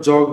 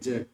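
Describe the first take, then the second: First: The vowel sounds like the o in jog. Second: The vowel sounds like the a in jack. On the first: The speaker calls it wrong. "অনেকে এটাকে জগ বলেন, উচ্চারণটা জগ হবে না" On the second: The speaker calls it right. "জ্যাক হবে"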